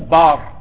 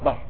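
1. الحركة طويلة، فتحة ممدودة 'aa'. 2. الحركة قصيرة، فتحة خفيفة 'a'. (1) "مو بار" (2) "لا هي فتحه"

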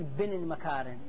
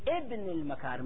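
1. تبدأ مباشرة بصوت الباء. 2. تبدأ بهمزة ثم حركة قبل الباء. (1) "ما اقول بن المكارم" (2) "اقول اقول ابن المكارم"

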